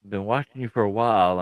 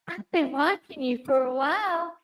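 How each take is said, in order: First: It is said in a plain, normal voice. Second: It is said in Yonko's put-on character voice.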